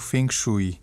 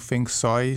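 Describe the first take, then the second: First: It is pronounced the Portuguese way. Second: It is pronounced the Cantonese way.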